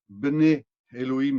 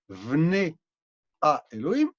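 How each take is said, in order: First: The first word begins with a B sound. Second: The first word begins with a V sound. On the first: The speaker calls it wrong. "on ne dit pas Bnei Elohim" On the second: The speaker calls it right. "le B, il se prononce V"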